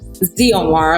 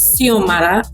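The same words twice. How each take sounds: First: The name is pronounced the English way, with Z. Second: The name is pronounced the Spanish way. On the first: "the English form, with the hard Z" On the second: "with the Spanish form"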